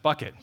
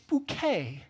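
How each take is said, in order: First: The name sounds like the word bucket. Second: The name sounds like the word bouquet. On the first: The speaker calls it wrong. "you said bucket" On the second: The speaker calls it right. "what you don't know is it's bouquet"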